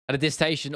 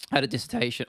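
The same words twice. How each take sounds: First: Said in the usual way. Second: Voice crack. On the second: Real, not acted. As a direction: voice cracks on the word. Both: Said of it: "that voice crack".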